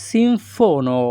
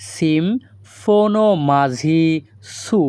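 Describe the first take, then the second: First: Said in the usual way. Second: সিমফোনো মাঝি সু said slowly, syllable by syllable; slow Greek demo. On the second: Shown as a demonstration. Teacher slowly models সিমফোনো মাঝি সু for viewers. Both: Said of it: "এই বাক্যের Greek ভাষা হবে".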